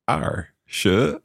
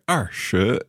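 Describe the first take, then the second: First: The tones are off, not falling then rising. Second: The first syllable falls and the second rises. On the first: The speaker calls it wrong. "I was funny with my tones there" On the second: The speaker calls it right. "That would be fourth tone and then second tone"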